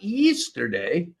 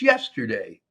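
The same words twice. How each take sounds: First: The vowels are said in a New Zealand accent. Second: The vowels are said in a standard accent. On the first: The speaker calls it wrong. "not yesterday" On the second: The speaker calls it right. "The day before today was yesterday"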